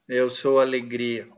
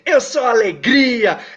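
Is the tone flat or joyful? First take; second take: flat; joyful. First: It is said flatly, without feeling. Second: It is said with real joyful feeling.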